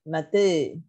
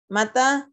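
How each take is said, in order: First: The final vowel leans toward e. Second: The final vowel is an open a. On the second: "bil fathah"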